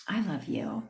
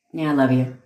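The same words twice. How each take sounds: First: Soft whispered declaration of love; tender whisper. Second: Dismissive "love you" with no tenderness; offhand, unfeeling. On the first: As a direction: whisper it softly and sincerely. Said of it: "this is where you can say". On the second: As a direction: toss it off as if you don't mean it. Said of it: "That has a whole different meaning". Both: Shown as a demonstration.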